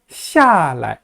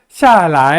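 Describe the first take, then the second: First: The second syllable is short and weak. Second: The second syllable is long with a rising tone. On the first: This is how northern standard speakers say it. "라이를 약하게 발음한다" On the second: This is how southern speakers and Taiwan say it. "라이를 길게 제이성어로 발음합니다"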